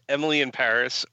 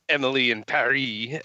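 First: Paris is said so it does not rhyme. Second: Paris is said so it rhymes with Emily.

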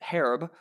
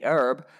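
First: The h at the start is sounded. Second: American accent, the h is silent.

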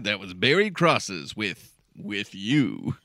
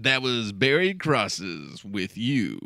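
First: There is a pause before the last word. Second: It runs straight through without a pause.

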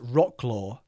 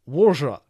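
First: It is said with an American English pronunciation. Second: It is said with an approximate Polish pronunciation. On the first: The speaker calls it wrong. "Us American folks, pronounce the city as Wroclaw" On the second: The speaker calls it right. "in Polish, it's pronounced something like Wrzra"

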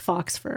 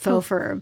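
First: The first word ends with a ks sound. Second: The first word ends with a plain vowel. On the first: The speaker calls it wrong. "It's not fox pronounced fox fur" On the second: The speaker calls it right. "It's faux fur"

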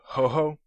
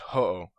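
First: The second syllable starts with an h sound. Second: The second syllable starts with a vowel. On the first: The speaker calls it wrong. "Some people say Ho-Ho, like a Twinkie" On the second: The speaker calls it right. "This is Ho-Oh"

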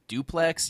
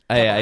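First: The name sounds like the word duplex. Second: The name sounds like the words double X. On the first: The speaker calls it wrong. "I've been reading it as Duplex in my brain" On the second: The speaker calls it right. "I need to rewire my brain for that"

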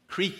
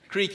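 First: The vowel is a long ee sound. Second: The vowel is a long ee sound.

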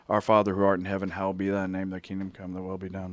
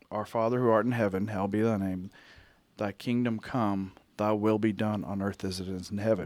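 First: It is said quickly, run together. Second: It is said slowly, phrase by phrase.

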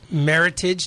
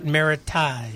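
First: It is said like English, rhyming with heritage. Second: It is said with a French-style ending. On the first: The speaker calls it right. "Meritage, not Meritage" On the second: The speaker calls it wrong. "They want to make it French"

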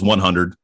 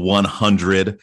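First: The word is said casually with reduced sounds. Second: The word is said carefully with every sound clear. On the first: This is how people normally say it. "everyone goes 100" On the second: This is the proper pronunciation. "Opposed to 100"

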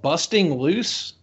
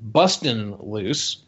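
First: The first word ends with a full 'ing' sound. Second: The first word ends with a clipped 'in' sound. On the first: The speaker calls it wrong. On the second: The speaker calls it right.

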